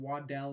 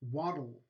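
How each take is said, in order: First: A vowel is heard between the d and l. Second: The stop releases straight into l, no vowel. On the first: The speaker calls it wrong. "you're not saying waddell" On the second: The speaker calls it right. "A lateral release"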